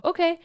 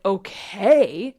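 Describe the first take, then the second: First: Short, high, light okay; calm acceptance acted out. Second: Loud, drawn-out okay, rising; voice of the emotion. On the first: You answering a scary emotion, light acceptance. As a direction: answer with a quick, chirpy okay. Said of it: "you go". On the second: Acted. Emotion answering you, loud and doubtful. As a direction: stretch okay into an unsure question. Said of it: "the emotion is like".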